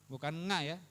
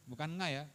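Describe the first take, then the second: The two takes are said the same way.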